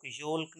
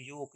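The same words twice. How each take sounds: First: योल्क with the L sounded; "yolk" with an audible L in योल्क; wrong pronunciation. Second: योक said "yoke", no L; long O straight into K in योक; silent L. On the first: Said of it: "योल्क नहीं". (योल्क में एल बोलकर गलत उच्चारण) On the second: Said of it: "एल का sound नहीं है". (योक में एल चुप) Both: Shown as a demonstration.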